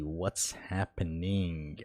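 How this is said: It is said in a put-on character voice. The speaker calls it right.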